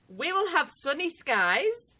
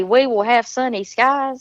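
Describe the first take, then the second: First: Slow, quiet British read of the weather; a quiet British weather line. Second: A Southern woman repeats "We will have sunny skies" for the chat; Southern accent. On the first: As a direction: say it in a British accent, slowly. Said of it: "get you to say". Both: Shown as a demonstration.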